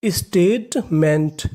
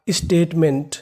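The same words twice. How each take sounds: First: statement drawn out very slowly, each part apart; slow syllable by syllable. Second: Said in the usual way. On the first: Shown as a demonstration. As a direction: break statement into slow parts for learners. (Statement को बहुत धीरे, अलग-अलग हिस्सों में) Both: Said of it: "तो meaning बनी".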